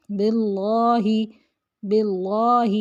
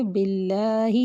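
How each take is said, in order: First: باللہ with a thick heavy ل; wrong heavy lam. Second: باللہ with a thin light ل; light lam. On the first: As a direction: show the mistake, fatten the ل. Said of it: "لام کو موٹا پڑھ دیتے ہیں". (باللہ میں لام کو موٹا پڑھنا) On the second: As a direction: model it, keep the ل thin. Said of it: "باریک پڑھیں گے". (باللہ میں لام باریک) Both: Shown as a demonstration.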